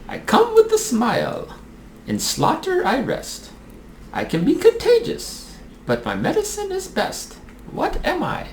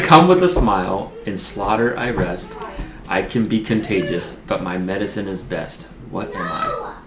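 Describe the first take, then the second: First: It is said in a put-on character voice. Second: It is said in the speaker's normal voice.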